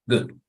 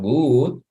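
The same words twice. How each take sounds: First: The vowel is kept short. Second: The vowel is drawn out long. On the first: The speaker calls it right. "Es corto" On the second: The speaker calls it wrong.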